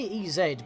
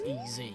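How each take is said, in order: First: The Z is said the British way. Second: The Z is said a non-British way. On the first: This is how people in the UK say it. "you say E Z because of us in the U K" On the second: This is how the name is meant to be said. "the intended way for it to be pronounced is E Z"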